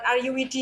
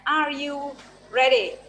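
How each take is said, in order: First: The last word is said like 'widi'. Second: The last word is said like 'ready'. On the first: The speaker calls it wrong. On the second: The speaker calls it right.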